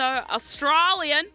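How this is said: It is said in a put-on Australian accent.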